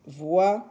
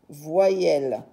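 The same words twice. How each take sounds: First: "voyelles" broken as voy, elles; syllable by syllable. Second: Said in the usual way. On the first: Shown as a demonstration. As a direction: leave a clear gap inside "voyelles". Teacher repeats term syllable by syllable.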